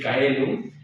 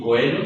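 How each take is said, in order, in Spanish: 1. La primera vocal es el diptongo ae. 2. La primera vocal es el diptongo oe. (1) "no se debe decir caelum" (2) "ni coelum"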